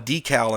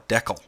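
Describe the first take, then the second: First: It is said the American way. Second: It is said the Canadian way. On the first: "what we call a decal in the United States" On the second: "they call a decal"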